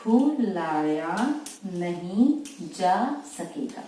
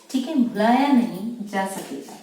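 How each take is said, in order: First: Drawn out word by word, slow; teacher dictating each word slowly for students; slow dictation. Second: Said in the usual way. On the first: Shown as a demonstration. Shorthand teacher dictating भुलाया नहीं जा सकेगा slowly. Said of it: "इस तरह से लिखेंगे आप". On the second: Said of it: "तो देखिए".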